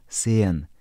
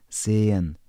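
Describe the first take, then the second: Both takes have the same delivery.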